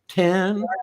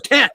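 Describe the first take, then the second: First: The word is said in an unsure, hesitant way. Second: The word is said in a firm, confident way. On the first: The speaker doubts the answer. The speaker calls it wrong. "They always had this like lisp in their voice" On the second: The speaker commits to the answer. The speaker calls it right. "that's my answer. I'm sticking with it"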